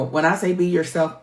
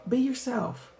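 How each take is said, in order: First: Said in the usual way. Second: Be yourself, higher and hushed, weighted; emphatic be yourself. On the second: Shown as a demonstration. Urging viewers, emphatic and pointed. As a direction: say it again so it lands.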